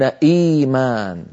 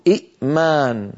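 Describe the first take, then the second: First: إيمان with a long smooth ii at the start. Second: إئمان as i', a glottal stop, then maan; two hamzas. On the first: Teacher showing what Arabs say, first vowel held long. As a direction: slowly stretch the first vowel of إيمان, no glottal break. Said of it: "يقولون إيمان". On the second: Teacher showing the avoided form, glottal break after first vowel. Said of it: "بدل من أن يقولوا". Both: Shown as a demonstration.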